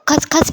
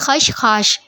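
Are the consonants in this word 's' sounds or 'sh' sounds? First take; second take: s; sh. First: The word is said with 's' sounds. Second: The word is said with 'sh' sounds. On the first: The speaker calls it wrong. "कुछ लोग खसखस भी बोलते हैं, खसखस नहीं है" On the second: The speaker calls it right. "सही प्रोनाउंस यही है खशखाश"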